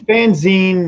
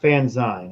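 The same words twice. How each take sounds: First: The ending sounds like the end of magazine. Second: The ending does not sound like magazine. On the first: The speaker calls it right. "it's fanzine" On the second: The speaker calls it wrong. "not fanzine"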